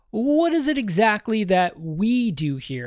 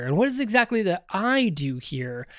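First: Slow, higher question with weight on "we"; quoted puzzled question, "we" stressed. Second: Higher-pitched question with weight on "I"; quoted puzzled question, "I" stressed. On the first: Quoting Vision's puzzled repeated question. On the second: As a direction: lean on "I", setting it against the others. Repeats question, swapping we for I. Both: Retold or imitated.

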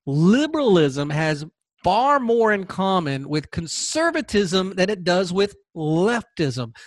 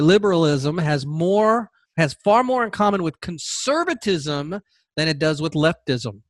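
First: Liberalism has far more in common said slowly, leaning on "far"; slow it down and hit "far"; slow emphatic repeat. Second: Said in the usual way. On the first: Shown as a demonstration. Repeating the key point to viewers, slow and emphatic. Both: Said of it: "let me repeat that".

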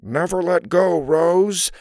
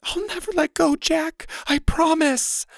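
First: Put-on male role, out of the mouth's corner; hammed-up movie hero's plea; side-of-mouth man's voice. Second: Very high, strained heroine voice; hammed-up hoarse farewell. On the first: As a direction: talk from the side of your mouth. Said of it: "in a lower voice out of the side of her mouth". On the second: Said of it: "she said hoarsely". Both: A narrator's reading.

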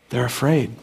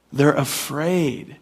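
First: Said in the usual way. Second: "They're afraid." stretched out slowly, each word weighed; slow it right down on "They're afraid."; slow, emphatic. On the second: Shown as a demonstration.

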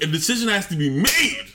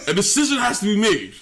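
First: Said in the usual way. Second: Shouted emphasis. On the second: Acted. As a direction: hammer it home and shout it. Repeated louder after a laugh.

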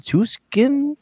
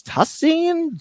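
First: "Tuskin" tried high, with a hard K in the middle; unsure pronunciation attempt. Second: "Tussin" tried high, with an S sound in the middle; unsure pronunciation attempt. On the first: Host guessing again at a town name, unsure attempt at "Tuskin". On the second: Host asking UK players about a town name, unsure attempt at "Tussin". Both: Shown as a demonstration. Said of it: "tell me what that word is".

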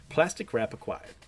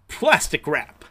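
First: Said in the usual way. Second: Loud triumphant announcement; showy reveal. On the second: Acted. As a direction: present it like a magic trick. Reveal of new invention.

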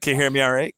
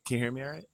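First: Raised voice to be heard; louder into the phone. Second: Soft, distant voice; too quiet for the phone; quiet, far from the mic. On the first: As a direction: speak up into the phone. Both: Real, not acted. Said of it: "You gotta talk right into the phone".

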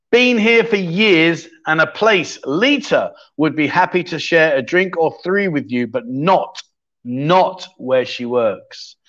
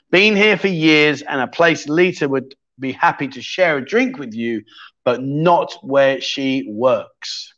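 First: Reads the riddle slowly, leaning on "not"; slow clue reading. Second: "not" held and slowed; slow clue reading again. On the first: Streamer reading his clue to chat, slow and pointed. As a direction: drags "not where she works" out slowly. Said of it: "reading out his quiz clue". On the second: Streamer rereading the clue to chat, slower at the end. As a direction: stretch "but not where she works" slowly. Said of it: "reading out his quiz clue again". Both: Shown as a demonstration.

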